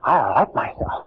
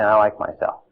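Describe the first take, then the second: First: It is said with strong emotion. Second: It is said flatly, without feeling.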